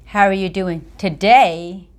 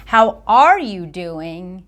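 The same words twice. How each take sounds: First: "today" marked as if yesterday was bad; hint that yesterday was worse, lean on "today"; stress on today. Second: Slow, "are" stressed, inviting a real answer; slow, asking for feelings. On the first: Speaker implying the listener was unwell yesterday, stress on "today". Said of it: "insinuated that yesterday you weren't doing so well". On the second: Speaker requesting an honest feeling, slow stressed "are". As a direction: ask slowly, wanting to hear the emotion. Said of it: "kind of requests an answer". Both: Shown as a demonstration.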